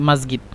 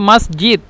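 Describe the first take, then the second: First: It is said in Egyptian pronunciation with a g sound. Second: It is said in standard pronunciation with a j sound. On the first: The speaker calls it wrong. "সে বলতেছে মাদ- মাসগিদ" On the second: The speaker calls it right. "এটার নাম হলো মসজিদ"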